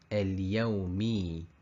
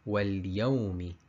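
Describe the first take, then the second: First: The final vowel is stretched out long. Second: The final vowel is kept short. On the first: The speaker calls it wrong. "The wrong one" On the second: The speaker calls it right. "The correct answer"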